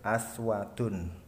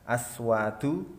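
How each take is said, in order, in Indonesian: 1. Kata ini berakhir dengan bunyi n tambahan. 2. Kata ini berakhir dengan vokal biasa.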